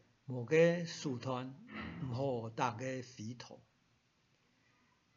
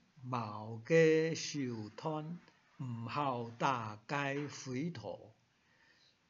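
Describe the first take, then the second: First: It is said in the Sixian Hakka accent. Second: It is said in the Sihai Hakka accent. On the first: "转到四音强是" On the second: "弹起来像四海花"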